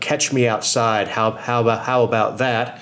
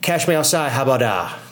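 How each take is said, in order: First: The phrase is pronounced carefully and clearly. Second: The phrase is pronounced sloppily with poor diction. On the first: This is what was intended. The speaker calls it right. "she was trying to tell" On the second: This is how it actually came out. The speaker calls it wrong. "came out"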